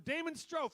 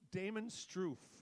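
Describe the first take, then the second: First: The surname has an 'oh' vowel sound. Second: The surname has an 'oo' vowel sound. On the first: The speaker calls it right. "It's really Strofe" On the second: The speaker calls it wrong. "That's how I've been pronouncing his name the last three weeks"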